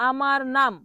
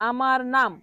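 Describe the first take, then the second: No difference in how they are said.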